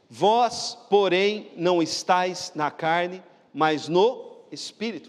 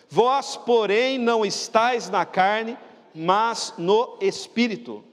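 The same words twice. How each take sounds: First: It is read with normal force. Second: It is read with strong force.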